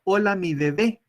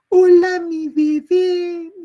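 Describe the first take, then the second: First: Said in the usual way. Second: Very high, loud, slow cooing; baby talk. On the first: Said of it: "Porque el niño no entendió". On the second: Shown as a demonstration. Teacher demonstrating how adults coo to babies. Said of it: "esa forma de hablar de tonos agudos".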